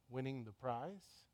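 It is said as a question, rising.

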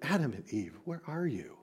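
It is said in a pleading, longing tone. The caller longs for them to come back. The speaker calls it right. "Or is it a father pleading with Adam and Eve?"

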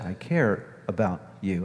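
The voice sounds warm and sincere. The speaker truly cares. The speaker calls it right. "Kind people say"

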